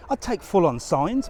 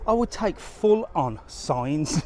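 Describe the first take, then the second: First: Said in the usual way. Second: Would drawn out slowly, said with weight; slow, emphatic I would take; stress on would. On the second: Real, not acted.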